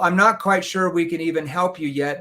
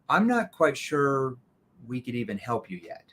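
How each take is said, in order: First: It is spoken quickly like a rehearsed script. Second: It is spoken slowly and calmly. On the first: It comes across as a sales technique. The speaker calls it wrong. "you sound like a scripted robot" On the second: It sounds natural and sincere. The speaker calls it right. "It's really important you slow down when you respond to that"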